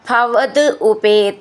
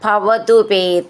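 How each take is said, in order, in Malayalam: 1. വാക്കുകൾ വേറെ വേറെയായി, ചേർക്കാതെയാണ് പറയുന്നത്. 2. വാക്കുകൾ ചേർന്ന് ഒരു വാക്കായി പറയുന്നു.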